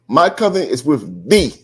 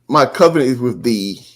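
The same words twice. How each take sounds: First: The word thee is strongly emphasized. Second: The word thee carries no special emphasis.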